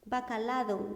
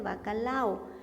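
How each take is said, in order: First: A d sound is heard before the final o. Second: No d sound is heard before the final o. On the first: The speaker calls it wrong. "No, son pastillas de bacalao" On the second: The speaker calls it right. "son pastillas de bacalao"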